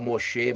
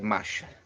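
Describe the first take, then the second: First: The name is said as Moshe. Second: The name is said as Macha. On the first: This is how other people say it. The speaker calls it wrong. "Eles falam Moshe" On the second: This is the name's true form. The speaker calls it right. "mas é Macha"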